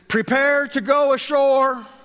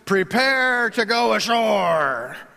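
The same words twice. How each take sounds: First: It is said in a normal voice. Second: It is said in a put-on sailor voice.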